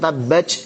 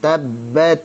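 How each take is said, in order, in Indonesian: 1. Konsonan akhirnya berubah menjadi bunyi ch. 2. Konsonan akhirnya berubah menjadi bunyi s. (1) "atau tabbat jadi c" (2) "misalkan jadi sin"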